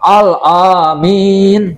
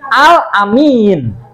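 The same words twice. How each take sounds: First: The first vowel of Amin is long. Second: The first vowel of Amin is short. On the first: The speaker calls it wrong. "Bukan, keliru" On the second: The speaker calls it right. "itu hamzahnya pendek"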